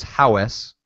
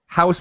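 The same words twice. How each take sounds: First: Minnesotan "howes", vowel drawn out; Minnesotan accent. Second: Said in the usual way. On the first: Shown as a demonstration. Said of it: "this very particular Minnesotan accent". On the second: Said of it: "house becomes howes".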